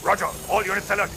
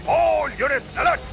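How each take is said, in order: First: Said in the usual way. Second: All units alert repeated higher and louder, slowed; urgent call. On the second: Acted. Commander alerting troops, louder repeat. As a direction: push all units alert harder the second time.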